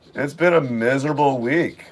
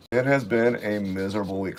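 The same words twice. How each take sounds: First: Said in the usual way. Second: "has" leaned on, softer overall; a tired insistence on "has"; stress on has. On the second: Shown as a demonstration. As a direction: press the word "has" to insist.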